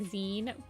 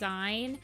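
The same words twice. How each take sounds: First: It sounds like the end of magazine. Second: It does not sound like magazine's ending. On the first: "it comes from magazine and I should probably be pronouncing it like" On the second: "I've always pronounced it as"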